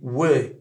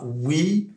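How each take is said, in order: First: The vowel is a lax i, near é. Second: The vowel is a tense French-style i. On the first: The speaker calls it right. "c'est we" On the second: The speaker calls it wrong. "c'est pas we"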